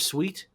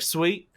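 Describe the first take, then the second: First: It is said with the speaker's usual accent. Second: It is said with an imitated local accent. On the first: This is how the speaker used to say it. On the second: The speaker has picked up the local way of speaking.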